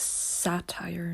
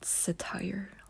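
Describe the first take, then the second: First: The stress is on the first syllable. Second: The stress is on the second syllable. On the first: The speaker calls it right. "The right pronunciation is satire" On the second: The speaker calls it wrong. "not satire. Like the accent is on sa, not tire"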